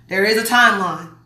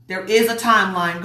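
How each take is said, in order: First: Said in the usual way. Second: "is" stressed as the strongest word. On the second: Real, not acted. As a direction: lean on "is" to insist. Repeats it, insisting on IS.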